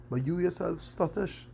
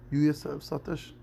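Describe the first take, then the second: First: "yourself" pitched high and rising; a higher, rising jab at "stuttish"; raised accusation. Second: Said in the usual way. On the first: Shown as a demonstration. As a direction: point the finger on "yourself", lifting the voice high.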